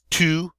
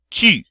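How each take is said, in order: First: The vowel sounds like the English oo sound. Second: The vowel is a rounded sound absent from English. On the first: The speaker calls it wrong. "it often comes out as tu, which is close, but not exactly" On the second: The speaker calls it right. "that nice e sound that we don't have in English"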